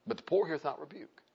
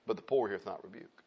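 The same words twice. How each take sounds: First: "poor" leaned on with a rise; "poor" lifted and held, rest plain; restated with stress. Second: Low, soft scripture line. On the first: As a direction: bring the word "poor" up on a rising tune. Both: Shown as a demonstration.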